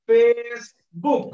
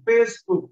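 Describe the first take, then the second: First: Facebook stretched very slowly, each syllable drawn out; teacher slowly stretching Facebook for the class. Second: Said in the usual way. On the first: Shown as a demonstration. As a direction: draw out Facebook slowly so the syllables can be counted.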